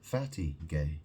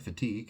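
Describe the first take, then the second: First: It is said as two words, fatty gay. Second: It is said with the standard pronunciation, fuh-TEEG. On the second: "fatigue means tired"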